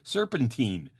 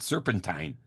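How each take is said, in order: First: The ending does not rhyme with turpentine. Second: The ending rhymes with turpentine. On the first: The speaker calls it right. "when it's really serpentine" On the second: The speaker calls it wrong. "Vince pronounces it serpentine, like turpentine"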